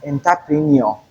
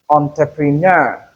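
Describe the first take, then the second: First: Entrepreneur as en-ta-PREE-nee-or; mispronounced entrepreneur. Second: Entrepreneur as on-tre-pre-NUR; correct pronunciation of entrepreneur. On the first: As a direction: start entrepreneur with "en", end in "nee-or". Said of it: "many people mispronounce this word as". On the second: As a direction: stress the last syllable of entrepreneur. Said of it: "The stress is on the last syllable". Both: Shown as a demonstration.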